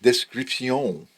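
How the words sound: It is pronounced the French way. "you just pronounce it description, the way the French would do it"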